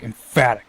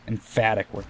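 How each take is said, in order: First: Emphatic punched, louder, middle syllable hit; emphatic stress. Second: Said in the usual way. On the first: Shown as a demonstration. Gamer demonstrating emphatic with a loud punched stress. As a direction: bite down on emphatic. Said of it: "a very emphatic word". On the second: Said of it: "Like, emphatic".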